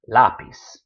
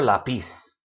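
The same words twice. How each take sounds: First: "Lápiz" as LÁ-piz, LÁ punched loud; stress on first syllable. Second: "lápiz" mis-stressed as la-PIZ; stress on last syllable. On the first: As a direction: hit the LÁ of "Lápiz". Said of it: "stressed where that accent mark is". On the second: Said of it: "never lápiz". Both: Shown as a demonstration.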